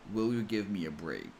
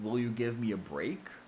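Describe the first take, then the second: First: The voice falls at the end. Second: The voice rises at the end.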